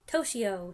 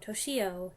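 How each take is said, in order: First: The stress is on the first syllable. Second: The stress is on the second syllable. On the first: "emphasis on the first syllable" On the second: "on the second syllable"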